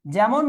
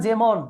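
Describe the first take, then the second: First: যেমন as "jæmon", open æ; open vowel. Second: যেমন as "jemon", close e; close vowel. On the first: Teacher quizzing students, যেমন with open æ. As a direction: widen the first vowel of যেমন. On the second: Teacher offering the alternative, যেমন with close e. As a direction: narrow the first vowel of যেমন. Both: Shown as a demonstration.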